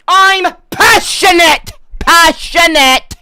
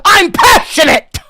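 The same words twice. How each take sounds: First: High, loud, slow shout; drawn-out mock shout. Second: High, very loud shout; mock passionate shout. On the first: Ginger streamer to chat, slow drawn-out comic shout. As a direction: stretch every word as you yell. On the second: Ginger streamer to chat, comic shout. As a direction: bellow it as a defense. Denies anger, repeats louder.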